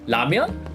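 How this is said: It is said with a Korean pronunciation. "That's the Korean way"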